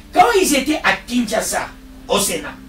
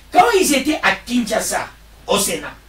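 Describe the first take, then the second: The two takes are said the same way.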